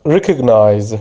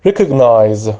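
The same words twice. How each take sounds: The two takes are said the same way.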